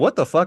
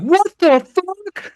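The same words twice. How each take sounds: First: It is said quietly, like a mutter. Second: It is said loudly, like a scream.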